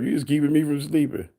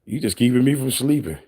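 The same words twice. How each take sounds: First: Mock voice. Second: Said in the usual way. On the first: Shown as a demonstration. Streamer mocking a chatter, in a light teasing voice. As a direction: repeat it in a lightly put-on mocking voice. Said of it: "repeated in put-on voice". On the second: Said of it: "repeats own line".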